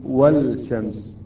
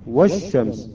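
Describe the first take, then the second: First: "والشمس" with a clear l, wal-shams; lam wrongly pronounced. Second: "والشمس" as wash-shams, no l at all; lam assimilated. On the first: Teacher showing the mistake, "والشمس" as wal-shams with audible lam. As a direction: sound the l separately in "والشمس", slowly. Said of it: "لا نقول". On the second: Teacher showing the correct reading, "والشمس" as wash-shams with silent lam. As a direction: drop the l in "والشمس" and double the sh. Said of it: "اللام لا أثر لها". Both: Shown as a demonstration.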